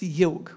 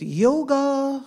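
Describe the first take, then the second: First: "yog" ending on the G, no final A; Sanskrit pronunciation. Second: "yoga" with a final A sounded; English pronunciation. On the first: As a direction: say "yog" as in Sanskrit, the last vowel dropped. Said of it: "but in Sanskrit it's". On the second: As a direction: say "yoga" the English way, ending on an open vowel. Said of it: "In English, many people say it". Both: Shown as a demonstration.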